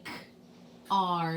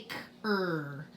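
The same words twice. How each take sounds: First: "k-r" as a K, pause, then the letter name "ar"; AR sound. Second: "k-er" as a K and then "er", like cur; ER sound. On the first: Teacher shows the right reading of car, "k-r" as k-ar. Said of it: "We say k-r". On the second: Teacher shows the wrong reading of car, "k-er" like cur. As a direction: sound out "k-er" slowly with an "er" vowel. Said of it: "we don't say k-er". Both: Shown as a demonstration.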